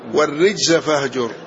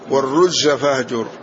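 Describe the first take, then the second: First: The first vowel of the word is 'i'. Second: The first vowel of the word is 'u'. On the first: "وبكسر الراء" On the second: "بضم الراء"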